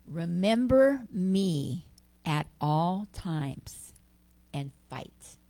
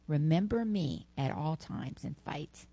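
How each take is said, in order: First: Slow, weighty, louder scripture voice; Krishna's words. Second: Said in the usual way. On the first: Acted. Preacher quoting Krishna from chapter eight, slow and solemn. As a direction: intone it like a divine command. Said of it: "He says in chapter eight".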